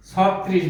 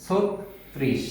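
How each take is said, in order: First: ছত্রিশ as "saw-trish", open first vowel; wrong open-vowel form. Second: ছত্রিশ as "sot-trish", closed o; correct o-vowel form. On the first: Teacher showing the faulty ছত্রিশ, open saw-trish. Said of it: "উচ্চারণটি ভুল". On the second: Teacher modelling ছত্রিশ for learners, sot-trish with o. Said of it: "ওকার দিয়ে উচ্চারণ করতে হবে". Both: Shown as a demonstration.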